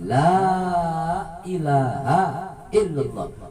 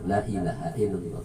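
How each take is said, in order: First: The opening 'la' vowel is drawn out long. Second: The opening 'la' vowel is said short. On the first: The speaker calls it right. "tapi ... dipanjangkan lam alifnya" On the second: The speaker calls it wrong.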